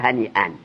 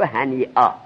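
First: The word ends with the nasal ending 'an'. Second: The word ends with a long 'aa' vowel. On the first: The speaker calls it wrong. "دیگه نگو هنی ان" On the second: The speaker calls it right. "بگو هنی آ"

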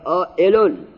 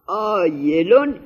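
First: The middle consonant is a glottal stop. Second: The middle consonant is a y sound. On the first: The speaker calls it right. "آئلون باید بخونیم" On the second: The speaker calls it wrong. "حالا کاتب سواد نداشته"

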